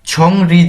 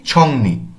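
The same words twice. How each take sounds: First: ছং রি with r after ng, as written; ছং রি, r starting the second syllable; spelling pronunciation. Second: ছংনি with n after ng, as spoken; ছংনি, n starting the second syllable; r changed to n. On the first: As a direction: read ছং রি letter by letter, keeping the r. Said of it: "ছং রি দেখলেও". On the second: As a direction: say ছংনি, swapping the r for an n. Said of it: "এখানে আমরা কিভাবে উচ্চারণ করছি". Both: Shown as a demonstration.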